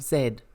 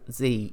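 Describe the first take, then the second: First: The letter is said the British way, zed. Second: The letter is said the American way, zee.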